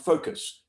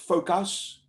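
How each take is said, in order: First: The second syllable has a neutral vowel. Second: The second syllable has a full 'us' vowel. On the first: The speaker calls it right. "It's pronounced focus. Neutral vowel" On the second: The speaker calls it wrong. "the word is not pronounced focus"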